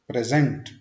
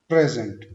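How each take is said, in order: First: The stress is on the second syllable. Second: The stress is on the first syllable. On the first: It is used as a verb. "Second syllable पे हमने stress देना है" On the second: It is used as a noun, meaning a gift. "एज a noun हम बोलेंगे"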